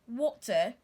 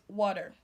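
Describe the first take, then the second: First: The middle T is a clear T. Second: The middle T sounds like a D. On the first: "The British says water" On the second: "while the American says water"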